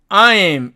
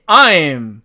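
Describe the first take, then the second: First: The vowel is a full two-part glide. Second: The same.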